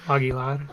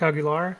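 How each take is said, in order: First: The R is said with a trill. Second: The R is said without a roll. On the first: The speaker calls it right. "You're supposed to like roll the R" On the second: The speaker calls it wrong. "So weird I say it like that"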